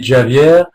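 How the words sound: The name is said with a Portuguese pronunciation. "In Portuguese, it would be"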